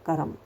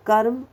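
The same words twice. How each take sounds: First: कर्म said as करम, extra vowel after र; wrong form. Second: कर्म said slowly with half र, no extra vowel; right form, slow. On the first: Teacher showing the wrong pronunciation of कर्म. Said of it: "कर्म शब्द गलत है". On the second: Teacher modelling the correct कर्म slowly. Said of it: "is a right word". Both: Shown as a demonstration.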